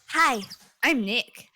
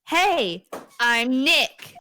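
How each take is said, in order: First: It is said quietly. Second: It is said loudly.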